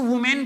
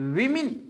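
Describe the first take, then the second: First: The first syllable sounds like 'woo'. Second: The first syllable sounds like 'wi'. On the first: The speaker calls it wrong. "इसको वुमेन पढ़ते हैं" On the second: The speaker calls it right. "Plural noun जब होता है इसका sound होता है विमिन"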